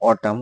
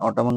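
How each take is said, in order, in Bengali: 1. শব্দটি M ধ্বনি দিয়ে শেষ হয়। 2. শেষে N ধ্বনিটি উচ্চারিত হয়। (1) "আমরা এটাকে বলবো অটাম" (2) "অটামন না বললে"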